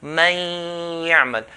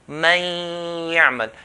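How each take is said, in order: First: The n merges into a nasalized, held y. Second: The n merges into a nasalized, held y.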